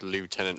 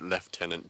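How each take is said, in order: First: The word is said without an F sound. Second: The word is said with an F sound.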